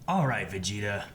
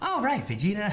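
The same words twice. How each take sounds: First: It is said in a deep voice. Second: It is said in a higher voice.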